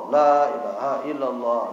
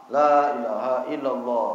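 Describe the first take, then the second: No difference in how they are said.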